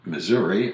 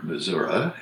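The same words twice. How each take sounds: First: "Missouri" ending in "ee"; "Missouri" with clear final "ee"; standard pronunciation. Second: "Missouri" ending in "uh"; folksy "Missouri", final vowel relaxed to "uh"; local variant pronunciation. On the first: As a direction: say "Missouri" as "muh-ZUR-ee". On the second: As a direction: say "Missouri" as "muh-ZUR-uh". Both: Shown as a demonstration. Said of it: "if you wish".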